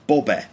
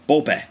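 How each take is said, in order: First: The word is said with distorted vowels. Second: The word is said with distorted vowels.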